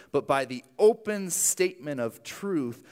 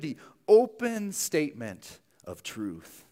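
First: Said in the usual way. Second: "open statement of truth" slowed right down, each word weighed; slow emphatic repeat. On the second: Shown as a demonstration. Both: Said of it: "You see that?".

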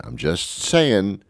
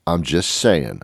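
First: "I'm just saying" slowed and leaned on, with "saying" falling; drawn-out emphasis. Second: Said in the usual way. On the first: Shown as a demonstration. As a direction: stretch out "saying" to make the point stick.

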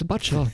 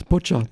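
First: "butcher" with the vowel of "but"; mispronounced butcher. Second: "butcher" with the short vowel of "put"; correct butcher pronunciation. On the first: Learner recalling the mistake he learnt from, "butcher" with an "uh" vowel. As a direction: say "butcher" wrongly, rhyming its start with "hutch". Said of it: "I always will know that it doesn't". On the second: Learner giving the word he now remembers, "butcher" with a "put" vowel. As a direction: say "butcher" properly, starting like "push". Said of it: "it will pronounce butcher". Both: Shown as a demonstration.

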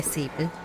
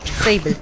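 First: Sable said as "Seeble"; mispronounced name. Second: Sable said with an "ay" vowel; corrected name. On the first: Acted. Player bidding dwarf goodbye, Sable as "Seeble". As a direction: say Sable with an "ee" vowel. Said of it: "What do you call him?". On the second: Shown as a demonstration. Player answering game master, Sable as "Say-bl". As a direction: say Sable as "Say-bl", half laughing. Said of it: "She said Sable".

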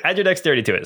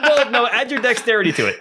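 First: Said in the usual way. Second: Laughing through the words; chuckling while correcting. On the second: Real, not acted. Laughing at a tiny damage roll.

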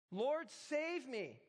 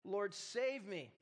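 First: Higher, very slow anguished cry; the second plea, pitched up in panic. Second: Slow desperate plea for rescue; crying out. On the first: Peter going under cries again to the Lord, higher anguished cry. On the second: Peter sinking in the water calls to the Lord, slow desperate plea. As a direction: drag it out, pleading to be saved. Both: A narrator's reading. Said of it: "cried out".

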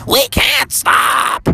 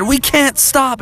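First: Very high, stretched-out falsetto wail; slow shrieky mother cry; Froggy's mom. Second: Urgent, raised-pitch cry; quick high protest; Froggy. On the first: Mom in labor refuses to stop, drawn-out high wail. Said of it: "And Froggy's mom said". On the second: Froggy sees the police behind, high urgent voice. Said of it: "And Froggy said". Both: Acted.

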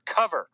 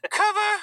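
First: Said in the usual way. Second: Squeaky mock-girl voice on the word; Greta impression. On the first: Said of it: "I said color". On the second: Activist correcting her slip, high-pitched parody. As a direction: jump into a very high put-on voice.

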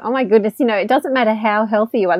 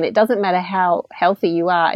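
First: "you know, it doesn't matter how healthy you are" with the weight on "you", falling at the end; stress on you. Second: "It doesn't matter how healthy you are" with the weight on "doesnt"; stress on doesn't. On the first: Retold or imitated. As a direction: lean on "you" as a sudden realisation. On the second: Shown as a demonstration. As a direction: hammer "doesnt" home as a firm lesson. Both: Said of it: "This is what Elise has told us over and over again".

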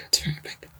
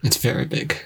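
First: Whispered. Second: Said in the usual way. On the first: Real, not acted. Repeats it whispered.

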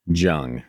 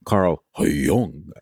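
First: Put-on "Jung" with a hard English J, like judge, rhyming with young. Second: "Jung" said as "Yoong", with a Y sound and rounded vowel. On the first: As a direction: say "Jung" with the J of jump. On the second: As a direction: say "Carl Jung" the German way, like Yoong. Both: Shown as a demonstration. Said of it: "It's Jung".

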